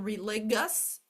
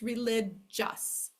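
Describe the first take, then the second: First: The G is said as a hard G sound. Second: The G is said as a J sound. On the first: The speaker calls it wrong. "instead of it being religious" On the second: The speaker calls it right. "it's religious"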